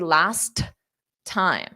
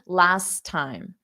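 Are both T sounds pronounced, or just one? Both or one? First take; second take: both; one. First: Both T sounds are pronounced separately. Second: The two T sounds merge into one. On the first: The speaker calls it wrong. "otherwise you would have to say last time. You don't want to say that" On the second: The speaker calls it right. "I'm only going to pronounce one"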